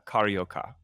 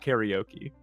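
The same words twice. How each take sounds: First: The name is said with Brazilian Portuguese sounds. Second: The name is said with English-style sounds. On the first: The speaker calls it right. "my understanding is it's uh, karaoke" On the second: The speaker calls it wrong. "it's not karaoke"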